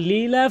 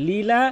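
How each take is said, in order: No difference in how they are said.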